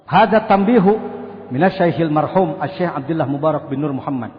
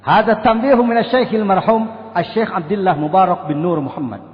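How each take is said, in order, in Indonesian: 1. Dibaca dengan gaya datar dan lokal. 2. Dibaca dengan gaya khotbah Arab yang melodis. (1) "Walaupun belum sangat bagus"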